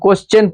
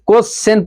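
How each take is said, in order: First: The middle consonant sounds like 'ch'. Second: The middle consonant sounds like 'sh'. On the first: The speaker calls it right. "কোশ্চেন পড়া উচিত আমাদের" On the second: The speaker calls it wrong. "যেমন কোশ্চেন পড়ি"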